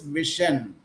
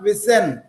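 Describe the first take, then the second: First: The middle consonant is a sh sound. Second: The middle consonant is an s sound. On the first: The speaker calls it right. "It is vision" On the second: The speaker calls it wrong. "It is not vision"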